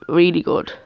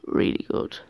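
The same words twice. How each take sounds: First: Said in the usual way. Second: A secret little whisper of praise. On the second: Shown as a demonstration. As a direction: whisper it, unvoiced. Repeats praise, then whispers it.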